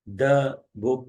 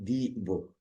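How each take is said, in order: First: The word 'the' has a short 'uh' vowel. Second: The word 'the' has a long 'ee' vowel. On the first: The speaker calls it right. "द कहेंगे" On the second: The speaker calls it wrong. "दी नहीं कहेंगे"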